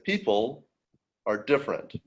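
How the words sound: It is said with clear stress on a word. The speaker calls it right. "So you have a stress"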